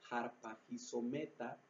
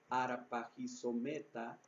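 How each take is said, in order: First: The word begins with a rasping J-like sound. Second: The word begins directly with a vowel sound.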